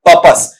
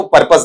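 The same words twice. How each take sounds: First: Teacher demonstrating पर्पस correctly; correct pronunciation. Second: पर्पस with a z ending, the common mistake; पर्पस as learners mispronounce it; wrong pronunciation. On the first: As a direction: model पर्पस the right way, pəpəs. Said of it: "क्या बनेगा बेटा". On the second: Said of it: "पर्पस नहीं बनता है". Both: Shown as a demonstration.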